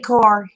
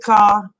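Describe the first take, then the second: First: It is said in a standard accent. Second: It is said in a Boston accent.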